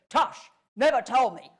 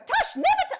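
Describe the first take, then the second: First: It is said in a calm, even tone. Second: It is said in a slightly hysterical tone. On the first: The speaker calls it wrong. "he's not going to say" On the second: The speaker calls it right. "It's going to be that slightly hysterical tone"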